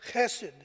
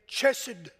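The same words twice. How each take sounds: First: The first sound is a rough guttural. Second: The first sound is not guttural. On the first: The speaker calls it right. "make sure you have that guttural there" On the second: The speaker calls it wrong. "the good old rednecks from Lee County would say"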